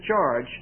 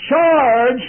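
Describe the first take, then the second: First: Said in the usual way. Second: Very loud, high battle shout; lieutenant's charge cry. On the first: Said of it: "when he says". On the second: Retold or imitated. Lieutenant leading troops into battle, full shout. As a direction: roar the order to charge.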